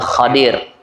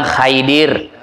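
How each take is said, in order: First: The first syllable has the vowel a. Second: The first syllable has the vowel ai. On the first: The speaker calls it right. "cara menyebutnya yang benarnya sebenarnya adalah Khadir" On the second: The speaker calls it wrong. "ada lagi yang bilang Khaidir"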